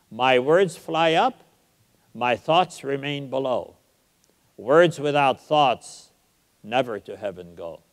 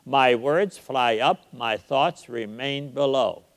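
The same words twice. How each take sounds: First: Recited verse. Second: Slow, with the stress on words, up, thoughts and below; iambic reading. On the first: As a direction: savor each line of Shakespeare. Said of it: "write two lines like that". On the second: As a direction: beat out the iambs of "My words fly up". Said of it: "It's iambic". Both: Shown as a demonstration.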